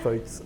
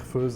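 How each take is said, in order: First: The name is said with a Bernese German pronunciation. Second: The name is said with a French pronunciation. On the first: This is how it is said in Bern. "dit à la bernoise" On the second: This is how it is said in Geneva and France. "J'ai appris à dire Feuz euh, quand je viens à Genève ou, à- ou- ou en France"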